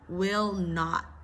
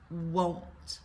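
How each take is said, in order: First: Both words are said in full. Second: The words are joined into one short syllable. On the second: "Similar to do not, don't, will not, won't"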